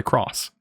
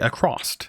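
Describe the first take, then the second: First: It uses the common, widely expected pronunciation. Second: It uses the speaker's regional dialect pronunciation. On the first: This is how other people expect it to be said. "I don't say across" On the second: This is how the speaker was raised to say it. "when I say across"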